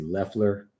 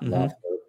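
First: The first vowel sounds like 'eh', as in Leffler. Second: The first vowel sounds like 'oh', with the O. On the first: The speaker calls it right. "it's actually Loeffler" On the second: The speaker calls it wrong. "not Loeffler"

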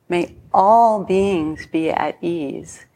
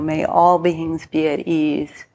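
First: It is said with more feeling. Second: It is said with less feeling.

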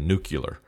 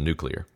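First: An extra vowel is inserted between k and l. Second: No extra vowel is inserted between k and l. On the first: "adding an extra like syllable into a word, is when people say nuclear" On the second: "instead of nuclear"

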